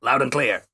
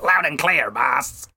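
First: A hint of Raiden's voice, calm and flat; imitating Raiden. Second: Imitating Raiden. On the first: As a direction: say it lightly as Raiden would. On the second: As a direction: answer the Colonel lightly as Raiden. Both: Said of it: "'Cause that's how he talks".

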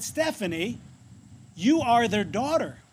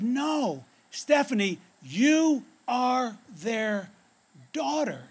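First: Said in the usual way. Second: "you are their daughter" spaced out slowly, word by word; raised pitch, "you" and "daughter" drawn out with weight; slow insistence. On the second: Retold or imitated. Little girl corrects disbelieving Stephanie, "you are their daughter" slow and insistent.

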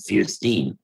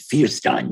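First: Fierstein as FEER-steen, ending rhymes with "seen"; brother's pronunciation. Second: Fierstein as FEER-stine, ending rhymes with "fine"; mother's pronunciation. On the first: Showing brother's way with the surname, Fierstein pronounced FEER-steen. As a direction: end Fierstein with a long-e "steen". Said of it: "My brother pronounced it". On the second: Showing mother's way with the surname, Fierstein pronounced FEER-stine. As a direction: end Fierstein with a long-i "stine". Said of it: "my mother pronounced it". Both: Shown as a demonstration.

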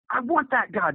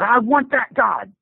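First: High, softer, falling plea; higher and quieter plea; softer repeated plea. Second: High, slow pleading; higher, slow desperate plea. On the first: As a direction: say it again, softer, almost to himself. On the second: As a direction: beg for it with raw need. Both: Retold or imitated. Son-in-law converts.

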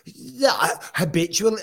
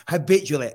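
First: Incredulous echo. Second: Said in the usual way. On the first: Real, not acted. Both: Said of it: "Brian's out of his mind".

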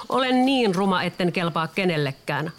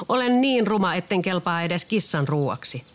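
First: The duckling cries out its misery as it runs; despairing cry. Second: The duckling cries out again, fleeing the cat; despairing cry. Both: A narrator's reading. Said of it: "ankanpoikanen huusi".

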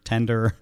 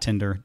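First: Tender, the corrected name; Tender, first vowel e made clear; Tender with short e. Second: Tinder, the wrong name, lower and passing; the name misheard as Tinder; Tinder with short i. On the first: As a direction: say Tender with an e, distinct from Tinder. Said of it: "not Tinder". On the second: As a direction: say Tinder with an i in the first syllable. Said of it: "it was called Project Tender, not Tinder". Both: Shown as a demonstration.

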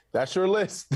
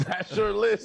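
First: Said in the usual way. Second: Laughing through the words. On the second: Real, not acted. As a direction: repeat it with a laugh.

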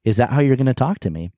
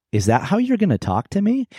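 First: Faster, lightly surprised rather than angry; quick, surprised question. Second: High, startled question; almost surprise. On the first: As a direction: toss it off in mild disbelief. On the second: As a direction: ask it genuinely taken aback. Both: Retold or imitated. Husband caught off guard by his wife's hurtful words, surprised. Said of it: "almost surprise".

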